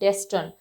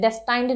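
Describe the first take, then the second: First: The second syllable has a short, reduced vowel. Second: The second syllable has a long 'eye' vowel. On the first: The speaker calls it right. "It is डेस्टन" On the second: The speaker calls it wrong. "डेस्टाइंड नहीं है"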